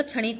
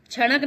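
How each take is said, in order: First: क्षणिक ending in -ik; correct form. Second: क्षणक ending in -ak; wrong form. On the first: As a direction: clear i after ण in क्षणिक. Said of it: "क्षणिक होता है". (सही उच्चारण, क्षणिक) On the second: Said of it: "क्षणक नहीं होता". (गलत उच्चारण, क्षणक) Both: Shown as a demonstration.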